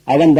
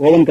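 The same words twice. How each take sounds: First: அவன் with a short "uh" first; correct oven vowel. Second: ஓவன் with a long O first; mispronounced oven. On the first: Teacher confirming the right form, அவன் with short A. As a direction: say oven as "uh-ven", no long O. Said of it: "இதனுடைய சரியான உச்சரிப்பு". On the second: Teacher rejecting the common form, ஓவன் with long O. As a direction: say oven the wrong way, "oh-ven". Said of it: "கிடையாது". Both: Shown as a demonstration.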